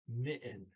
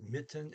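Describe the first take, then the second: First: The middle consonant is left silent. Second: The middle consonant is clearly pronounced. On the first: The speaker calls it right. "He does not pronounce the D or the T" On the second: The speaker calls it wrong. "I mispronounced"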